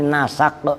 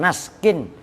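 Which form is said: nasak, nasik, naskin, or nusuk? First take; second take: nasak; naskin. First: The word has a vowels after n and s. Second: The word ends in -kin with no vowel after s. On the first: The speaker calls it right. "dengan dibaca fathah sinnya, ... tapi nasak" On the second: The speaker calls it wrong. "bukan naskin"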